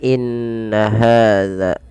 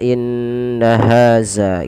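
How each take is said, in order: First: The second word has a soft dh sound. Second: The second word has a buzzing z sound. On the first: The speaker calls it right. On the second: The speaker calls it wrong.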